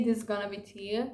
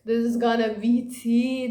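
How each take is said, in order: First: Said in the usual way. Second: Louder, put-on hyped voice. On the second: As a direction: sell it like juicy gossip. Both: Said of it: "I was like".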